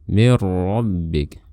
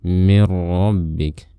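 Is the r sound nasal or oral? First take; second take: oral; nasal. First: The sound comes out without nasal resonance. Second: The sound comes out through the nose. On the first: The speaker calls it right. "tapi mir rabbik" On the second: The speaker calls it wrong. "jangan melafalkan dengan suara yang keluar melalui rongga hidung kita"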